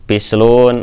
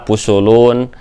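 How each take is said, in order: First: It is said with vowels i, u. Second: It is said with vowels u, u, u.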